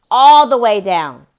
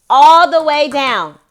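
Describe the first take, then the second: First: Loud firm order. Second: Slower, stern repeated order; louder, slower order. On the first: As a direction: insist firmly from another room. Telling child to lower volume. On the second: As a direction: insist louder, slower and firmer. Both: Real, not acted.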